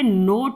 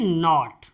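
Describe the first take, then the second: First: The vowel is a long 'oh' sound. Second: The vowel is a short open 'aw' sound. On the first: The speaker calls it wrong. "इसे हम पढ़ेंगे नोट नहीं पढ़ेंगे" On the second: The speaker calls it right. "इसे पढ़ते हैं नॉट"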